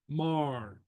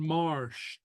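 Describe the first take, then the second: First: The word ends in a plain t sound. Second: The word ends in an sht sound. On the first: "others who will pronounce it as" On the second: "and marsht"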